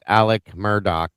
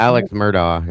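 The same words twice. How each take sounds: First: Alec ending on a hard K, no S; corrected pronunciation. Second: Alex with an audible X, a "ks" ending; Alex said with the final S sound; Alex pronunciation. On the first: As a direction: pronounce Alec with a plain "k" ending. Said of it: "name is pronounced Alec Murdaugh". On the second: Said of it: "Alex Murdaugh's name is pronounced Alec Murdaugh". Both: Shown as a demonstration.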